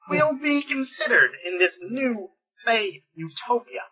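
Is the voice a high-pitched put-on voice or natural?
high-pitched. It is said in a squeaky, high-pitched voice. The speaker calls it right. "something like Maxwell Smart on helium"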